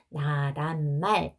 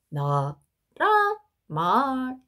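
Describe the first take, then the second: First: The pitch stays level across the word. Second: The pitch goes low, then high, then rising. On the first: It was probably not said this way long ago. "옛날에는 나란 말 이렇게 하지 않았을 거고요" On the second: It was probably said this way long ago. "이런 식으로 소리의 높낮이가 있었을 거라고"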